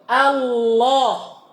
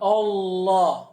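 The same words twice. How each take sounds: First: The first vowel is a thin, open 'a'. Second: The first vowel is thickened toward 'o'. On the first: The speaker calls it right. "Finahu pada contoh ini" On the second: The speaker calls it wrong. "Bukan Allah. Bukan O"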